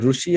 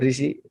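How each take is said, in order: First: The first syllable sounds like 'ru'. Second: The first syllable sounds like 'ri'. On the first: "some people say Rushi" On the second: "or Rishi"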